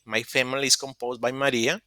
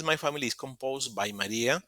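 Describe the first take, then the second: First: "family" said as "fe-mi-li", English-style vowel; corrected family. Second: "family" said as "fa-mi-li", Spanish-style a; first try at family. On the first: Student correcting herself, says "family" the English way. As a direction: fixes "family" with an English "fe" sound. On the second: Student reading her forum post, says "family" Spanish-style. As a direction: reads "family" with a Spanish open a vowel. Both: Shown as a demonstration. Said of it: "la pronunciación es family".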